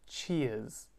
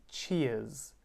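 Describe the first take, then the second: No difference in how they are said.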